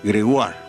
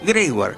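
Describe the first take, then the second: First: The name keeps its original French pronunciation. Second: The name is said with its stress moved. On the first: This is the authentic family name. "la pronunciación es Gregoire, pues es un apellido francés" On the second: This is the stage name he was given. "le cambió el acento, dijo Gregoire"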